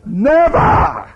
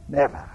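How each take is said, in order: First: High, loud never with a rise; outraged cry. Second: Quiet echo. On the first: Peter refusing Jesus, high loud cry. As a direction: throw it out in protest. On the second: Quiet echo after loud never. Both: Acted.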